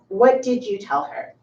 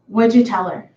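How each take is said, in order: First: Each word is said fully and separately. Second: The first two words merge into one syllable.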